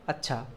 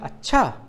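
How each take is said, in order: First: It is said in an agreeing, accepting tone. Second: It is said in an objecting, disagreeing tone. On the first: The listener agrees with what was said. "हामी भरना है तो इस अच्छा का प्रयोग कैसे करेंगे" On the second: The listener thinks what was said is not right. "जब किसी के बात का विरोध करना है"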